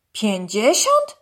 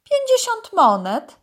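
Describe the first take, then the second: First: Slow, incredulous rising question; astonished. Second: Much higher, louder price announcement; python trader. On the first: Dog repeats the python's price, astonished. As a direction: repeat it in drawn-out disbelief. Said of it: "powtórzył zdziwiony Urwis". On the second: Python tells dog the price, high sales pitch. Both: A narrator's reading.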